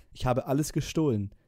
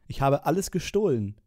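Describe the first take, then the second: First: Said in the usual way. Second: „gestohlen“ tonlos geflüstert, am Ende fallend; Flüstern. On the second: Acted. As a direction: den ganzen Satz ohne Stimme hauchen. (geflüsterte Liedzeile) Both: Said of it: "dieses Flüstern immer zwischen den".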